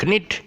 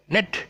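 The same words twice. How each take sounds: First: KNIT said "kuh-nit", pitched high; mispronounced with sounded K. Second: Said in the usual way. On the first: Shown as a demonstration. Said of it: "is not knit". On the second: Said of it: "it's, uh, knit".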